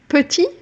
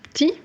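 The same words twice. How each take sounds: First: Every syllable of the word is fully pronounced. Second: Part of the word is dropped, said quickly.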